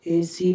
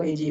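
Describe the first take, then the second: First: "एसी" said louder with a plain s; wrong s sound. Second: "एजी" with j in the middle; correct j sound. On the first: Teacher showing the mistake in easy, loud s mispronunciation. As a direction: say "एसी", s in place of j. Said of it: "एसी नहीं होगा". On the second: Teacher giving the right easy, j pronunciation. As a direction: say "एजी", voiced j for the s. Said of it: "एजी होगा". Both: Shown as a demonstration.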